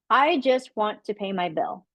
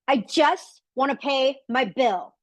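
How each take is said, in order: First: It is said in a calm, neutral tone. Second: It is said in a strained, frustrated tone.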